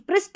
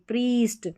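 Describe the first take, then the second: First: The vowel is short and clipped. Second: The vowel is long and drawn out. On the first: The speaker calls it wrong. "प्रिस्ट नहीं" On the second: The speaker calls it right. "प्रीस्ट पढ़ेंगे"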